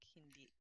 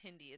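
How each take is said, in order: First: The stress is on the last syllable. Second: The stress is on the first syllable. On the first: The speaker calls it right. "the emphasis is on the last I" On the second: The speaker calls it wrong. "It's not Hindi"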